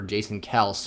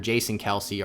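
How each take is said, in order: First: The surname has one syllable, ending in 's'. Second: The surname has two syllables, ending in 'see'. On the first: The speaker calls it right. "his name is pronounced Travis Kels" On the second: The speaker calls it wrong. "we've been saying it wrong all this time"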